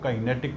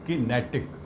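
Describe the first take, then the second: First: The first syllable has a long 'kai' vowel. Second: The first syllable has a short 'ki' vowel. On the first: "कुछ उसको काइनेटिक pronounce करते हैं" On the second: "कुछ लोग किनेटिक भी pronounce करते हैं"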